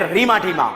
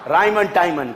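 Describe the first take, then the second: First: The names are said with an 'ee' vowel. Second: The names are said with an 'eye' vowel. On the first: This is an affectionate nickname form. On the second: This is the name's full form.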